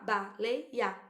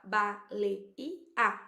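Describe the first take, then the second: First: "baleia" in three pieces, ba-lei-ia; child's count: ba, lei, ia; split in three. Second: "baleia" in four slow pieces, ba-lei-i-a; slow child's count: ba, lei, i, a; split in four. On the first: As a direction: break "baleia" up with a gliding last ia. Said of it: "outras vão falar". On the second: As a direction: break "baleia" up with a separate i. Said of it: "Quantos pedacinhos tem?". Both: Shown as a demonstration.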